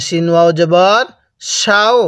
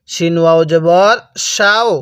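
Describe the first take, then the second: No difference in how they are said.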